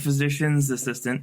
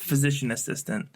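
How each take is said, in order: First: An s sound follows the word physician. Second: No s sound follows the word physician. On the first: The speaker calls it wrong. "People love saying physician's assistant. It's not that" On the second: The speaker calls it right. "It's physician assistant"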